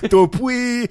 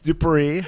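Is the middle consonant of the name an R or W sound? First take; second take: W; R. First: The name is said with a W instead of R. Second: The name is said with a clear R sound. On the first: The speaker calls it wrong. "Elmer Fudd. I was like" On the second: The speaker calls it right. "It's Dupree"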